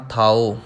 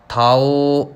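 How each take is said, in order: First: ਥਾਉ closed on a short u; short u ending. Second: ਥਾਉ with the final vowel dragged long; overlong ending. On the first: Teacher correcting learners, ਥਾਉ with short ending. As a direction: keep the end of ਥਾਉ brief, not lengthened. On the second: Teacher showing the mistake to avoid, ਥਾਉ drawn out. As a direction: stretch the end of ਥਾਉ too far. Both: Shown as a demonstration. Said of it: "ਲੰਬਾ ਨਹੀਂ ਕਰਨਾ".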